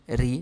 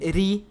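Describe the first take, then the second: First: The word is said on a low tone. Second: The word is said on a high tone. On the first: It means to sink or hide. "num tom baixo" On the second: It means to see or find. "num tom alto"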